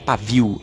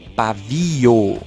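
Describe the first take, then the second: First: The final vowels merge into one syllable. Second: The final vowels are split into two syllables. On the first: This is the casual spoken form. The speaker calls it wrong. "não é pavio" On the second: This is the standard form. The speaker calls it right. "é pavio"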